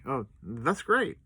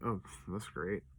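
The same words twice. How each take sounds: First: It sounds sincerely pleased. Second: It sounds sarcastic and dry. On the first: The death is welcome news. The speaker calls it wrong. "I'd never say it like" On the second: The news is actually bad. The speaker calls it right. "But like"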